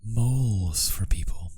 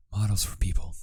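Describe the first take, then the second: First: "Moles for people" said with "Moles" as /moʊlz/, whispered; misreading. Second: "Models for people" with "Models" as /mɑdəlz/; corrected reading. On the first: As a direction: read "Moles" as mole, /moʊlz/. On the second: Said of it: "Jeez, models". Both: Real, not acted.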